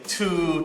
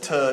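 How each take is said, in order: First: The vowel is a full 'oo' sound. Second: The vowel is a weak 'uh' sound. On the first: "instead of saying tu" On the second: "he says ta"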